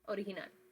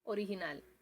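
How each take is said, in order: No difference in how they are said.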